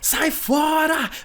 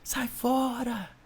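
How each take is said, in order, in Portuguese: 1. É dito em voz alta, como um grito. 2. É dito mais baixo e suave. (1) "o espírito que gritava assim, ó" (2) "vai começar a baixar"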